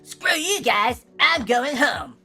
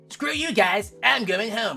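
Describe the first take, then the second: First: The voice is pitched up higher. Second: The voice is at a lower, natural pitch.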